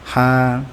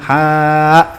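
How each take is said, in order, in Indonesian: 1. Vokalnya pendek, tanpa hamzah di akhir. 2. Vokalnya panjang dan diakhiri hamzah. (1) "dihilangkan bunyi hamzahnya dan dibaca dua harokat saja" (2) "kan aslinya ha gitu kan"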